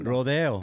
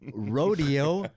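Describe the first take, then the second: First: The word has a Spanish pronunciation. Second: The word has an English-style pronunciation. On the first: This is the correct Spanish way to say it. "what's the correct Spanish pronunciation?" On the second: This is how the street name is said locally. "Rodeo in Baldwin Hills is spelled exactly the same way"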